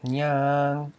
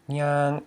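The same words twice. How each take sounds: First: Nyang with a long held vowel; mid tone nyang, long. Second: Nyang clipped short on a high tone. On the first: Teacher contrasts the two words, nyang long and mid. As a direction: stretch out nyang, long and level. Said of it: "long vowel, and it's a mid tone". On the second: Teacher contrasts the two words, nyang short and high. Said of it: "short vowel and a high tone". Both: Shown as a demonstration.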